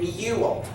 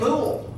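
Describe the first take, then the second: First: The vowel sounds like 'you', with a y-glide. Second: The vowel sounds like plain 'oo', no glide. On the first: The speaker calls it right. "It's a long U, right? It says its name" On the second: The speaker calls it wrong. "we don't say mule"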